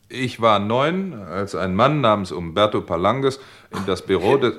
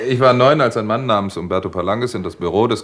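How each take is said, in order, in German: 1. Es wird mit steifer Sprechstimme vorgelesen. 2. Es wird locker im Plauderton erzählt. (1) "du sprichst doch nicht wie im Radio" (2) "Natürlich"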